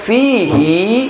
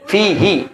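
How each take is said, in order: First: The final vowel is drawn out long. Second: The final vowel is held short. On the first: This is the reading of one particular reciter. "hi panjang" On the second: This is the common reading of most imams. "Kita pendek kalau kita hi-nya hi hi"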